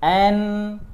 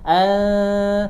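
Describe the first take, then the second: First: The n sound is pronounced fully and clearly. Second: The n sound is blurred into a nasal hum. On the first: "an itu jelas" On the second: "nah itu samar"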